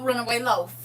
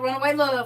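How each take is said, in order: First: The last word ends with an f sound. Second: The last word ends with a v sound. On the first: The speaker calls it wrong. "he said" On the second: The speaker calls it right. "instead of Runaway Love"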